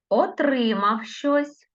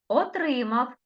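First: Отримав щось said slowly and high; Отримав щось, stress clearly marked; slow dictation. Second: Отримав said high, stress clearly marked; Отримав in a high, careful teacher voice; stressed dictation. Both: Shown as a demonstration. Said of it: "я по-різному називала слова".

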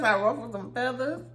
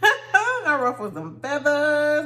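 First: Said in the usual way. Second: Laughing while saying it, slow. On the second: Real, not acted. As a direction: giggle through the confession. Laughing admission.

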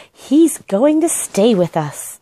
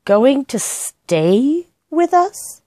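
First: Slow, proud announcement; announcing. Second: Very slow, high disbelieving repeat; incredulous echo. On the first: Girl telling the housekeeper about the bear, announcing. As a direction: declare it firmly and slowly. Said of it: "announced Judy". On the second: Housekeeper repeating the news, incredulous. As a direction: stretch it out in disbelief. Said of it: "echoes Judy's announcement". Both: A narrator's reading.

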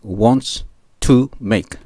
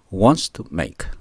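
First: "wants to make" said very slowly with the T barely touched; soft T. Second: "wants to make" said slowly, T held as a stop and not released; stopped T. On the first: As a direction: let the T in "wants to make" stop without popping. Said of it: "Tを強調しないようにします". (「wants to make」のTを弱く、ゆっくり) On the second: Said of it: "Tがなくって、ちょっとTでストップしてmake". (「wants to make」のTで止めてmake) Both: Shown as a demonstration.

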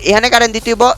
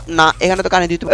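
First: Asked with a rising, wondering tune; puzzled question. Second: Lower, softer statement, stress on current; settled answer. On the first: Gamer asking himself where to plug in the power, puzzled. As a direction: wonder aloud whether power goes here. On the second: Gamer deciding the power must go here, matter-of-fact. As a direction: answer his own question flatly. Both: Real, not acted.

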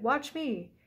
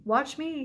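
First: Second eager call, fading; shouted. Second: High, louder excited shout; eager shout from the hilltop. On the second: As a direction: show off, yelling to be watched. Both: A narrator's reading. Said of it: "he shouted".

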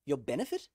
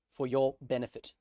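First: Light New Zealand accent, rising question. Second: Said in the usual way. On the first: Shown as a demonstration. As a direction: echo it in a Kiwi accent. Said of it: "Ooh, that's a New Zealand accent". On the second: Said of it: "that's a New Zealand accent".

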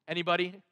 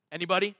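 Both takes have the same delivery.

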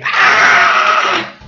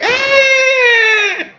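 First: Rough, pitchless scream; coarse comic yell; own mock scream. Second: Long high falsetto squeal; drawn-out mock shriek; imitated scream. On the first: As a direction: scream hoarsely like a startled man. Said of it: "Or be more like me". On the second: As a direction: squeal piercingly as if scared to death. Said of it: "it screamed and it scared her".

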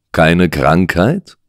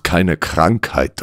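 First: Slow "Keine Krankheit" rising at the end; interested echo question. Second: Said in the usual way. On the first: Acted. Detective asks with new interest, questioning. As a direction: let "Krankheit" lift into a question. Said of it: "der nun doch Interesse zeigte". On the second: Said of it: "dann brach es aus ihm heraus".

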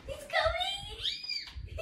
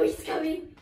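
First: High, drawn-out panicked yell; panicked shout. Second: Said in the usual way. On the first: Real, not acted. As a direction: stretch it out in alarm.

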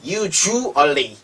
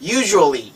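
First: Usually very slowly as 'yoo, zhoo, ally'; usually in syllables. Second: Said in the usual way. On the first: Shown as a demonstration. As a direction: stretch usually out part by part. (usually를 '유, 주, 얼리'로 아주 천천히 나누어) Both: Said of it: "우 소리가 나기 시작해요".

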